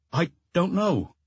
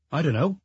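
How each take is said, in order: First: Put-on slow, higher child voice; schoolboy giving up on finding the words, slowly; hesitant repeat. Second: Lightly voiced schoolboy, higher, quick answer; a child's unsure reply, slightly rising; uncertain child. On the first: Child repeats his answer to the inspector, hesitant and slow. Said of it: "He simply repeated". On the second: Schoolboy answering the inspector's question, uncertain. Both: A narrator's reading.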